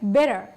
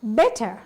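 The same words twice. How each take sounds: First: The middle t sounds soft, like a d. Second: The middle t is crisp and clearly pronounced. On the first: "But in American accent, ... එක D sound එකක් එන්නේ" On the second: "British English කතා කරනකොට T sound එක හොඳින් pronounce කරනවා"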